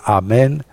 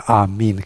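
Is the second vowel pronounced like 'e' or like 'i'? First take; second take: e; i. First: The second vowel sounds like 'e'. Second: The second vowel sounds like 'i'. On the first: This is the old form of the word. "vechiului amen" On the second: This is the modern Greek form of the word. "că eta era e, dar acum este i în greaca modernă"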